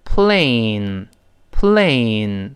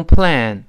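First: "plane" drawn out slowly on a long ay; correct diphthong. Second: "plane" cut short like "plan"; wrong vowel demo. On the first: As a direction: stretch the ay in "plane" into the n. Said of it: "是读成". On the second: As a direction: mispronounce "plane" without the ay glide. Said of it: "不能读成plane". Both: Shown as a demonstration.

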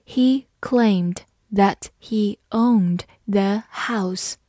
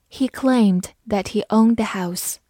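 First: Spaced-out careful model sentence with pauses between words; slow reading. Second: Said in the usual way. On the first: Shown as a demonstration. Teacher reading the example slowly for learners, slow reading. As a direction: read slowly, word by word. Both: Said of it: "我们慢读一遍".

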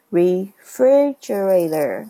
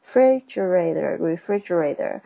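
First: "Refrigerator" slow, the "fri" syllable stressed; teacher modelling stress on "fri". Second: "refrigerator" said twice with "fri" stressed. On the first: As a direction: stretch it out, leaning on "fri". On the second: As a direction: repeat it, leaning on "fri". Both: Shown as a demonstration. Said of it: "它的重音是在F R I 那个上面".

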